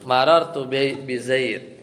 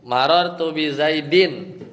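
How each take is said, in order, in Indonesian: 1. Kata terakhir berakhir tanpa vokal. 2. Kata terakhir diakhiri bunyi -in. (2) "tanwin, tanwin ya"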